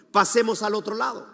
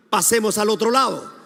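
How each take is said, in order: First: Said in the usual way. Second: Louder, firm call to repeat; emphatic declaration. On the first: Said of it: "Jesús dijo a sus discípulos". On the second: Shown as a demonstration. Preacher has hands raised to repeat Jesus' words, emphatic declaration. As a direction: lead the congregation in declaring it. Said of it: "Levanta tu mano, diga".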